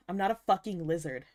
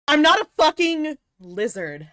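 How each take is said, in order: First: Said in the usual way. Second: Loud, high indignant protest; mock offended outburst; mock outraged. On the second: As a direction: snap it back at chat. Indignant denial to chat.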